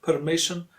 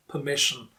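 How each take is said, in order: First: "permission" with a sounded R in per; R pronounced. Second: "permission" as puh-MISH-un; silent R. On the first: Teacher contrasts the mistake, "permission" with audible R. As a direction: let the R be heard in "permission". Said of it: "not permission". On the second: Teacher gives correct form, "permission" with silent R. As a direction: leave the R out of "permission". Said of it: "usually not pronounced". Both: Shown as a demonstration.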